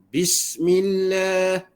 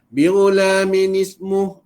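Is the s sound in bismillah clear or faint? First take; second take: clear; faint. First: The s sound after bi is clearly heard. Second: The s sound after bi is slurred and faint. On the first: The speaker calls it right. "Nampakkan suara sin" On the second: The speaker calls it wrong. "ambil begitu sambil lalu aja dia baca begitu eh"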